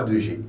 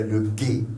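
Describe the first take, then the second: First: Letter G with a French zh sound; French G name. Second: Letter G with a hard g, then é; German G name. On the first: Teacher showing what German lacks, French G name. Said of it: "Il n'y a pas de G". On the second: Teacher giving learners the German letter, German G name. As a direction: say "G" as hard "gué". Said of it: "En allemand, non". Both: Shown as a demonstration.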